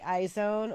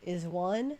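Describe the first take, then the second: First: The name sounds like 'eye-zone'. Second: The name sounds like 'is one'. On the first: "am I saying it right? iZone" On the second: "or is it Is One?"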